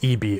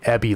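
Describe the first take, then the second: First: It is said as two separate letters. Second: It is said as one two-syllable word. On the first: The speaker calls it right. "I think it is E B" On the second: The speaker calls it wrong. "I was saying it Ebby last night"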